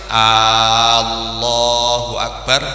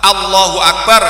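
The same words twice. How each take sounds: First: The first vowel of Allah is drawn out long. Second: The first vowel of Allah is short. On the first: It asks whether God is the greatest. The speaker calls it wrong. "artinya menjadi kalimat interrogatif" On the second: It states that God is the greatest. The speaker calls it right. "pas, dawa-dawa cendek-cendek"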